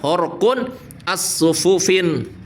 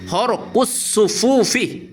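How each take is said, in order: First: The words end in vowels followed by n. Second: The words end in plain vowels without n. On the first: The speaker calls it wrong. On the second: The speaker calls it right. "yang benar"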